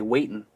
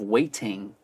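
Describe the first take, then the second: First: The middle t sound is dropped. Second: The middle t sound is clearly pronounced. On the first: "they drop the T in the middle of the words" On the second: "instead of waiting"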